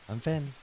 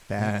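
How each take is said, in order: First: It is said in a higher voice. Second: It is said in a deeper voice.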